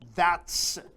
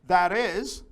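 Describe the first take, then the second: First: It is said as one contracted syllable. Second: It is said as two full words.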